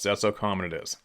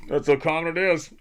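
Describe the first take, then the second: First: Said in the usual way. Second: "That's how common it is" said again higher and louder, hitting "is"; emphatic repeat. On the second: Shown as a demonstration. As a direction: drive the point home, pitch up on the repeat. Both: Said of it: "repeats the line for emphasis".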